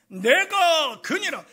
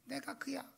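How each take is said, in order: First: It is said in a grand, majestic voice. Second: It is said plainly and casually.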